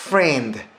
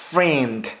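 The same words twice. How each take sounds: The two takes are said the same way.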